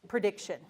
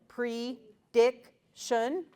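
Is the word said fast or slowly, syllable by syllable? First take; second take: fast; slow. First: It is said quickly as one smooth word. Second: It is said slowly, one syllable at a time. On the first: "then read it fast" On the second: "read syllable by syllable"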